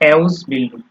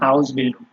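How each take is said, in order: First: The first word starts with an 'eh' vowel. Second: The first word starts with an 'ah' vowel. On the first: It is read as an English word. "এটা যদি একটা আপনার English word হইতো ... এ এর মতো করে বলি" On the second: It is read as a German word. "ডয়েচে যখন আপনি বলবেন, তখন সেটা সরায়ের মতো করে উচ্চারণ করতে হবে"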